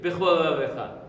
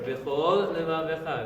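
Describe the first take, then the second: First: The two words are run together as one. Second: The two words are clearly separated.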